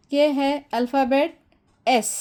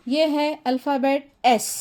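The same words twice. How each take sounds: The two takes are said the same way.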